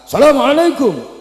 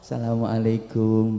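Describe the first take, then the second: First: It is said loudly with a high pitch. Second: It is said softly with a calm pitch. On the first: It is an open greeting to anyone. "dengan nada tinggi, suara keras" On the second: It shows humble respect to an elder. "nadanya halus, kalem"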